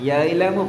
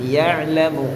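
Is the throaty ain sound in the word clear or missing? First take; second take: missing; clear. First: The throaty ain sound is weak or missing. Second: The throaty ain sound is clearly pronounced. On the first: The speaker calls it wrong. "യഅലമു പോരാ" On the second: The speaker calls it right. "ഐന് വരട്ടെ"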